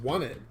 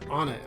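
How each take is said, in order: First: The name begins with a 'w' sound. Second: The name begins with a plain vowel sound. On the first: "it's pronounced "won it,"" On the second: "Or is it "on it"?"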